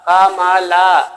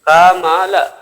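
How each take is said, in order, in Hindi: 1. अंतिम अक्षर लंबा खींचकर बोला जाता है। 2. अंतिम अक्षर झटके से काटकर छोटा बोला जाता है। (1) "अगर ला को अगर खींचेंगे ला, ... तो ये प्रोनाउंस में मिस्टेक हो जाएगा" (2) "ला को हम झटका से बोलते हैं"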